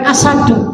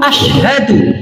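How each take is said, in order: First: The middle consonant is a plain s sound. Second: The middle consonant is a sh sound. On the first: The speaker calls it wrong. "bukan asadu" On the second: The speaker calls it right. "asyhadu ada shinnya"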